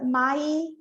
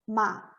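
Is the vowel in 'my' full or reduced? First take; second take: full; reduced. First: The vowel is a full, forced 'ai' sound. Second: The vowel is short and reduced, like 'ma'. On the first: The speaker calls it wrong. "não faz my, esse i do my, ele não é forçado" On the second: The speaker calls it right. "a gente só fala my girl, ma"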